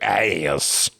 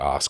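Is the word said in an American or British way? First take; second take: American; British. First: The word is said with an American vowel. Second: The word is said with a British vowel. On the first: The speaker calls it wrong. "I normally just go" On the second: The speaker calls it right. "it feels very strange to say ass because I don't say it"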